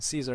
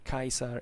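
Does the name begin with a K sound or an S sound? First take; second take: S sound; K sound. First: The name begins with a soft s sound. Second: The name begins with a hard k sound. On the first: This is the later church pronunciation. The speaker calls it wrong. "talk in ecclesiastical pronunciation" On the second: This is the original ancient pronunciation. The speaker calls it right. "their real names were Kaiser"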